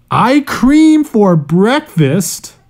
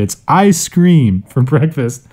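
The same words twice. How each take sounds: First: "I cream" said as two words, slow and high; misreading. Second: "ice cream" said clearly, stress on "ice"; careful "ice cream for breakfast"; correct reading. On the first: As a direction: read "I cream" with no ice. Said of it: "Oh, wait. No, sorry". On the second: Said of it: "No, sorry". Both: Real, not acted.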